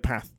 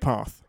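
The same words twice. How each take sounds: First: The word is said in a northern English accent. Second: The word is said in a non-northern accent. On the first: "in the north of England, they'd say path" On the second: "I say path"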